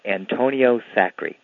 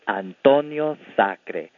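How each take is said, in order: First: The name is said with non-Spanish, Anglicized pronunciation. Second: The name is said with standard Spanish pronunciation. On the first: "a lot of people who don't speak Spanish can't say that very well" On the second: "If you speak Spanish, that's how you say it"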